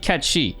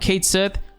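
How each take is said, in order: First: It is said the Gaelic way, like 'ketchie'. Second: It is read as English, like 'kate sith'. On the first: "in Scottish uh, Gaelic pronunciations, it's actually Ketchi" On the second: "when I was calling him Cait Sith"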